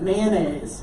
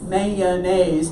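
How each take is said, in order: First: The word is said with two syllables. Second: The word is said with three syllables. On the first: "Two syllables" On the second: "Three syllables"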